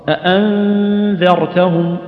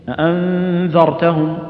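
The two takes are said the same way.

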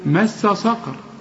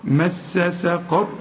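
First: The s of saqar is heavy and emphatic. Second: The s of saqar is light and plain. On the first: The speaker calls it wrong. "وبعدين تقول لي صقر" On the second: The speaker calls it right. "ما هي السين برضه"

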